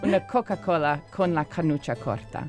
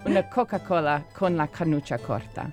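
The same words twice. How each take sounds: First: The C sounds are said as hard K. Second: The C sounds are said as hard K.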